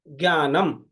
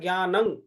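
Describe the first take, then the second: First: The word ends with an m sound. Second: The word ends with an ng sound. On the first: The speaker calls it wrong. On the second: The speaker calls it right.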